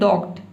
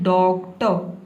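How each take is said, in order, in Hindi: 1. शब्द t की आवाज़ पर अचानक रुक जाता है। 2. शब्द का अंत एक लंबे अंतिम स्वर से होता है। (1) "आप ये ना बोले डॉक्ट, डॉक्ट नहीं बोलना है" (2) "आपको बोलना है डॉक्टर, इस तरह से"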